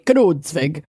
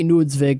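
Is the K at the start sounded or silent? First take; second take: sounded; silent. First: The initial K is pronounced. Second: The initial K is silent. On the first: "sometimes in the Midwest we pronounce the K" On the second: "or it might just be"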